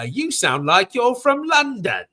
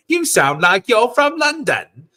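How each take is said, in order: First: High, slow movie-line voice; a light put-on voice for a film quote. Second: High movie-line voice quoting Paul Rudd; a light imitation of a film line. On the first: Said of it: "the joke that my roommate always have". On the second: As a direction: toss off the quote in a higher voice. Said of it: "that's Paul Rudd's line".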